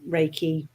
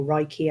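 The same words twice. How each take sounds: First: Reiki said as RAY-kee; first pronunciation of Reiki. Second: Reiki said as RYE-kee; alternative pronunciation of Reiki. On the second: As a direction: say Reiki with a "rye" first syllable. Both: Shown as a demonstration. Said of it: "however you pronounce it".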